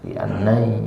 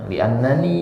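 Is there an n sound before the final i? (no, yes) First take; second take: no; yes. First: It ends in 'ai' without an extra n. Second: An extra n comes before the final i. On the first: The speaker calls it wrong. "Kalau li annai ya, enggak enak penyebutannya" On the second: The speaker calls it right. "li annani lebih enak gitu"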